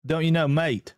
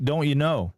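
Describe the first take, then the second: First: Put-on Australian accent, lightly done; Aussie accent. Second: Put-on Canadian accent, lightly done. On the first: Streamer showing off to chat, mock Aussie accent. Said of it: "my Aussie accent's good". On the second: Streamer says this one is better, mock Canadian accent. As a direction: have a go at sounding Canadian. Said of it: "uh, Canadian". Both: Shown as a demonstration.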